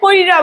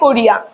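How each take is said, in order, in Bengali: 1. দুটি দল; ই-ধ্বনিটি র-এর আগে সরে গেছে। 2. তিনটি দল; র-এর পরে ই-ধ্বনি। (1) "কইরা বলে, এটা চলে গেল অপিনিহিতি" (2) "প্রথমে বলে লোকজন বলে কোরিয়া"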